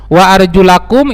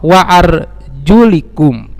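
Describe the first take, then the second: First: The vowel after the L is 'a'. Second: The vowel after the L is 'i'. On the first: The feet must be washed. "dengan huruf lam yang di fathah" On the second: The feet need only be wiped. "membacanya dengan kasroh"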